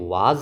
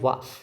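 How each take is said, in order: First: The word ends with a buzzing z sound. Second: The word ends with a hissing s sound. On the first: The speaker calls it wrong. "ये वाज नहीं है" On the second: The speaker calls it right. "ये है वास"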